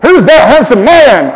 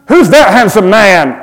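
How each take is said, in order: First: Put-on higher, loud American accent. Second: Lightly voiced admiring listener; a light mock gasp of admiration; imagined audience cry. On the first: Pastor asking the congregation to cry out in an American accent. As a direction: ham it up like an excited American. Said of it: "you've got to do it in an American accent". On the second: Pastor voicing the congregation admiring his passport photo, lightly. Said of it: "I hear you cry".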